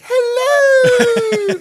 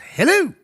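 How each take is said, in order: First: It is said like Mrs Doubtfire. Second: It is said in a Kiwi accent.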